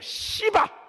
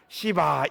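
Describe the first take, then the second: First: The word is said with strong, punchy force. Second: The word is said mildly, without force. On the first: It sounds like a curse. The speaker calls it right. "시바 이겁니다" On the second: It sounds like just a name. The speaker calls it wrong. "맛이 안 나요. 시바 이게 아니에요"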